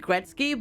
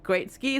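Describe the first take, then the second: First: The name is said as one tight word, 'Gretz-ky'. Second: The name is said as two words, 'great ski'. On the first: This is likely the name's real form. "it's probably Gretzky" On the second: This is the very American form used in the game. "they say call it Great Ski"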